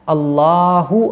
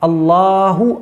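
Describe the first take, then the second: Both takes have the same delivery.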